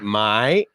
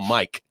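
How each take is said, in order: First: The name ends without a final consonant. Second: The name ends with a clear k sound. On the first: The speaker calls it wrong. "they'd be like, my?" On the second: The speaker calls it right. "no, Mike"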